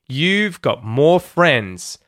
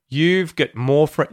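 First: The word got has a full open vowel. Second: The word got is reduced to sound like gut.

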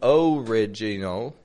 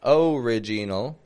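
First: The first vowel is a full O. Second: The same.

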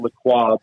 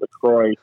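First: The name is said in its original, non-American way. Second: The name is said in an Americanized way. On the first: This is how the family pronounces it. "I always pronounce it LaCroix" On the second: This is how the drink brand pronounces it. "they've Americanized it and they pronounce it LaCroix"

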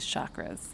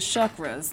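First: The word has its common anglicized pronunciation. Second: The word has its traditional, Sanskrit-like pronunciation. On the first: "for the majority of the people that are listening to this podcast, it is chakras" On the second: "like it's supposed to be pronounced"

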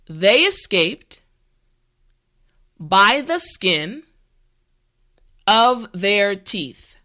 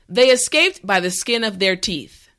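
First: The sentence is said slowly and carefully. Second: The sentence is said at natural speed. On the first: "this time repeat after me" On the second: "the last time at a regular pace"

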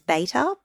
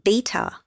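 First: Beta is said with an American accent. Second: Beta is said with a non-American, British-style accent.

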